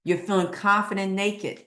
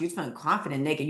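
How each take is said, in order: First: Said in the usual way. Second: Quicker repeat. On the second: Shown as a demonstration. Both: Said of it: "Oh my gosh".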